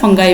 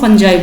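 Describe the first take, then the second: First: The middle consonant is a hard g sound. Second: The middle consonant is a soft j sound. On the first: "फिर फंगाई भी बोलते हैं" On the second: "उनको हम फंजाई बोलते हैं"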